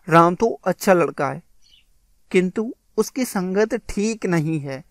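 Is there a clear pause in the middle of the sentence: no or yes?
yes. It has a clear pause in the middle. The speaker calls it right. "इस प्रकार से यह होगा"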